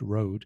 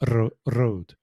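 First: The R is very soft, almost silent. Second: The R is strong and rolled. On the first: "the R is almost non-existent, very soft road" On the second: "In a typical Scottish accent"

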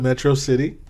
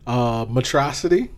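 First: The name is pronounced in the ordinary way. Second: The name is pronounced in an odd, mangled way. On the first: The speaker calls it right. "instead of Metro City" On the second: The speaker calls it wrong. "Mispronounced words"

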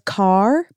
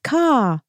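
First: The word is said in an American accent. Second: The word is said in an Australian accent. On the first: "He says car" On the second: "but it's like ka"

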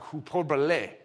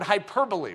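First: The word is said with a Spanish-like accent. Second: The word is said with English pronunciation. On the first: The speaker calls it right. "I added some kind of Spanish accent to that" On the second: The speaker calls it wrong. "it's not pronounced that way"

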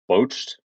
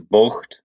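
First: The word ends in a soft 'ched' sound. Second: The word ends in a throaty 'kht' sound. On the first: The speaker calls it wrong. "not boached" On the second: The speaker calls it right. "I think it's bocht"

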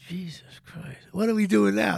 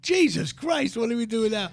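First: Only the second part is said loudly. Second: The whole line is said loudly. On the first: The speaker calls it wrong. "he said it like this. ... he belted out the second part" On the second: The speaker calls it right. "no, louder. We can't hear it"

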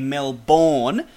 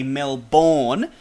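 First: It is said with an American pronunciation. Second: It is said with an American pronunciation.

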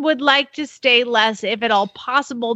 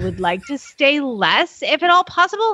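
First: It is read in her plain voice. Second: It is read in a put-on gushing voice.

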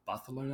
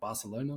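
First: The name is said with a Spanish accent. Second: The name is said with an English accent.

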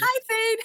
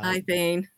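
First: The greeting sounds lively and excited. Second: The greeting sounds flat and unexcited.

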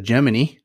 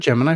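First: Gemini is pronounced the old-fashioned way. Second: Gemini is pronounced the usual modern way.

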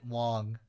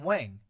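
First: The surname is said without the American-accented vowel. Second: The surname is said with an American-accented vowel. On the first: "but you pronounced it Wong" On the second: "they pronounce it with an American accent. So they would always pronounce it Adam Wang"

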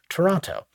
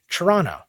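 First: The word is said carefully with every sound. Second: The word is reduced, with the middle t dropped. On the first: This is how outsiders say it. "for more cultured people than ourselves" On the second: This is how local people say it. "We say Toronto. All the letters are missing"

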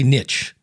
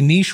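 First: It is said the American way. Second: It is said the British and European way. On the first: "Americans say niche" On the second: "it's the Brits and Europeans that say niche"

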